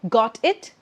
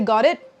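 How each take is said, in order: First: The words are said separately, without linking. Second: The words are linked together smoothly. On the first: The speaker calls it wrong. "and not" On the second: The speaker calls it right. "I'll say"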